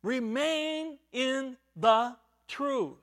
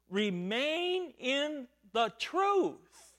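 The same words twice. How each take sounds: First: Remain in the truth again, slow with weight on "Remain"; slow repeated exhortation. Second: Remain in the truth, drawn out slowly with each word weighted; slow emphatic quote. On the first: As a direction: stress "Remain" and say it slowly. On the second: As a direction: lean on "truth" and let it fall. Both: Shown as a demonstration. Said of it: "he is saying".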